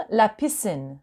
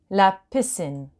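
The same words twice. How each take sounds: The two takes are said the same way.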